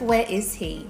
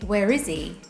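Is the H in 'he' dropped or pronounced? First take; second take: pronounced; dropped. First: The H sound in 'he' is pronounced. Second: The H sound in 'he' is dropped. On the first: "Instead of" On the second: "pronouns that start with an H drop that consonant. So we might say"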